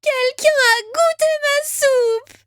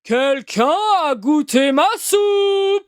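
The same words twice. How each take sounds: First: It is said in a tiny, small voice. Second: It is said in a big, deep voice.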